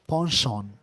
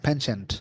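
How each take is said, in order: First: It is said in a British accent. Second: It is said in an American accent.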